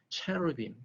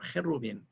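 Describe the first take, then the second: First: It is said the English way, starting with ch. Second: It is said the Hebrew way, starting with h. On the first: "영어 발음은 어, 체루빔" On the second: "히브리어 헤루빔"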